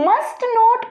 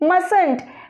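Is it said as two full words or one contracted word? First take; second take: two words; contracted. First: Two full words, with the t of must sounded. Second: One contracted word, with the first t silent.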